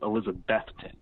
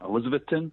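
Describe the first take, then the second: First: The 'beth' syllable is stressed. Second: The 'beth' syllable is not stressed. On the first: The speaker calls it right. "think of Beth, the name Beth" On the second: The speaker calls it wrong. "I'd always said Elizabeth- Elizabethton"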